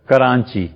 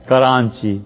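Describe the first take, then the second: Both takes have the same delivery.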